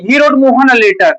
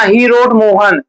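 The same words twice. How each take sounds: First: He wrote Mohan a letter read in one unbroken flow; no break after Mohan, run straight on into a letter; smooth reading with Mohan tied to a letter; right phrasing. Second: He wrote Mohan said as a closed chunk, stopping after Mohan; choppy reading that cuts Mohan off from the letter; wrong phrasing. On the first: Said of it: "ऐसा नहीं". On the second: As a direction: break off after Mohan as if Mohan was what he wrote. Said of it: "ऐसे मत पढ़ना". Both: Shown as a demonstration.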